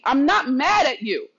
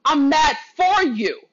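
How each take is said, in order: First: Said in the usual way. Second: "for" leaned on, slow and firm; slow down and press "for" against "at"; stress on FOR. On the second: Real, not acted. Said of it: "And there is a difference".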